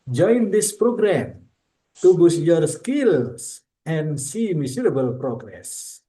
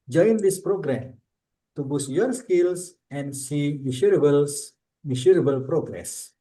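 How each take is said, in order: First: It is said in a firm, convincing promotional tone. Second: It is said in a plain, less convincing tone.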